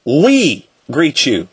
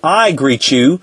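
First: "We" drawn out slowly, then a pause; stress on We. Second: "I" set apart before "greet you"; stress on I. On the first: Teacher quoting the Queen's majestic plural, slow stress on We. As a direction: stretch "We" grandly before "greet you". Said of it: "she says it in the majestic plural". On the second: Teacher rewording the Queen's greeting as singular, stress on I. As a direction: lean on the word "I", then finish evenly. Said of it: "She's saying". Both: Shown as a demonstration.

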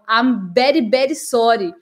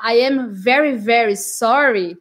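First: VERY said as "bery", both times; Indian B for V. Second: VERY with a clear V, curled R; standard V. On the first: Retold or imitated. Teacher imitates Indian friend, B for V. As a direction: swap V for B in VERY. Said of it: "eles falam o B". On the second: Shown as a demonstration. Teacher gives standard apology, clear V. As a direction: lip on teeth for each VERY. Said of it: "falar o V do very".

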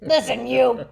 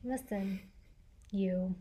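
First: Louder sharp warning; a stern call, no menace; loud firm voice. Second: Low, quiet, menacing warning; lightly voiced stern tough guy; deep firm voice. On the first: Retold or imitated. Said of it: "your serious voice". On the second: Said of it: "channeling your inner Liam Neeson".

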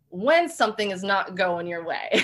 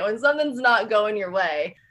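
First: Says it through a laugh, half rueful. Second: Said in the usual way. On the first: Real, not acted. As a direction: let the laugh leak into the words. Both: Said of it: "let's just put it lightly".

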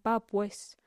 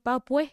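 First: Said in the usual way. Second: "بابوي", pa' pues with both s sounds dropped; Costeño "بابوي" ending on an open vowel. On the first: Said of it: "قصدهم". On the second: Shown as a demonstration. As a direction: leave the s off the end of "بابوي". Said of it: "ما ينطقون حرف الإس".

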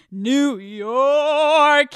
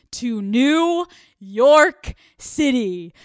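First: A louder, higher burst on New York; excited exclaim. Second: Slow, drawn-out and much louder; excited announcement. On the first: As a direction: shout the name, thrilled. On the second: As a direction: stretch out the city name like a grand reveal. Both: Real, not acted. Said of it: "I'm so excited".

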